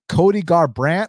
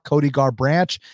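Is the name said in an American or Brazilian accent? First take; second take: American; Brazilian. First: It is said in a plain American accent. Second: It is said in a Brazilian Portuguese accent.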